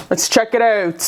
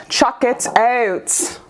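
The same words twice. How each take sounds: First: Said in the usual way. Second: "Chuck it out" drawn out slowly, with "check" turned into "chuck"; slowly twist "check" into "Chuck it out", just for fun; playful chuck. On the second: Shown as a demonstration. Reader repeating her own phrase as a slow, silly "Chuck it out".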